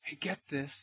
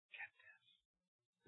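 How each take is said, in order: First: Said in the usual way. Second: A hushed, confiding whisper; secret-sharing whisper. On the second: Real, not acted. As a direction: lean in and whisper get this. Preacher drops to whisper.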